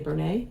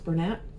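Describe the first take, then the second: First: The name ends in a vowel, without t. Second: The name ends with a clear t sound. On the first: The speaker calls it wrong. "I used to say Bernay" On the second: The speaker calls it right. "but I think it's Bernat"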